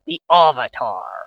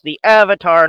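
First: The first vowel sounds like the vowel in 'father'. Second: The first vowel sounds like the vowel in 'cat'. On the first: The speaker calls it wrong. "not the Avatar" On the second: The speaker calls it right. "it's the Avatar"

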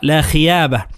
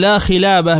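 First: The middle consonant is a y sound. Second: The middle consonant is an l sound. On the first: The speaker calls it wrong. "يجعلها بالياء" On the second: The speaker calls it right. "باللام"

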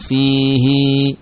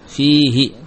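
First: The final vowel after h is long. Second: The final vowel after h is short. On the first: "dibaca dengan panjang fihi" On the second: "tanpa memanjangkan ha"

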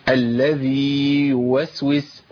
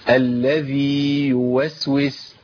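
The two takes are said the same way.

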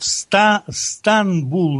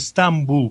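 First: The sound before the b is n. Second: The sound before the b is m. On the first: This is the Western form of the name. The speaker calls it right. "везде на Западе город Станбул называется" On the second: This is the form used on local maps. The speaker calls it wrong. "а не Стамбул, как у нас на картах пишут"

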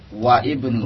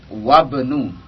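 First: The i of ibnu is pronounced separately. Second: The i of ibnu is dropped and linked. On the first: The speaker calls it wrong. "bukan waibnu" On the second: The speaker calls it right. "lihat wabnu"

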